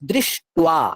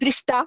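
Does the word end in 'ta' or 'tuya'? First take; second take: tuya; ta. First: The word ends in a 'tuya' sound. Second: The word ends in a plain 'ta' sound. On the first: The speaker calls it right. "টুয়া" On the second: The speaker calls it wrong. "অনেকে বলে দৃষ্টা, কিন্তু না"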